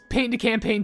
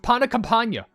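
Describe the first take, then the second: First: The name is pronounced the English way. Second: The name is pronounced the French way. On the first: The speaker calls it wrong. "I thought it was" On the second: The speaker calls it right. "it was"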